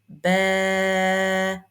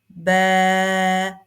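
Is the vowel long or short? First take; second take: long; long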